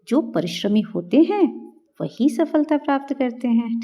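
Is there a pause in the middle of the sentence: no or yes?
yes. It is said with a pause in the middle. The sense of the sentence comes through clearly. The speaker calls it right.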